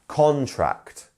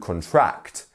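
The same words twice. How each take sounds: First: The stress is on the first syllable. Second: The stress is on the second syllable. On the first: It is the noun. "the main stress is on con" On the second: It is the verb. "That is where the stress is actually on the second syllable"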